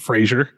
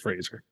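First: The name does not rhyme with laser. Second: The name rhymes with laser. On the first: This is the common way people say it. The speaker calls it wrong. "everybody says Brendan Fraser" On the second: This is how the actor himself says it. The speaker calls it right. "a clip of him saying it's Fraser"

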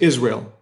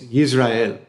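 First: It is said with an American pronunciation. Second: It is said with a native-style pronunciation. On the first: "in America, we pronounce it Israel" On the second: "My best attempt at pronouncing it the correct way"

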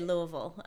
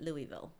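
First: It is said with the local pronunciation. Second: It is said with the common outsider pronunciation. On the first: The speaker is from the city. "When you're from there, you say Louisville" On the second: The speaker is not from the city. "a lot of people pronounce it Louisville"

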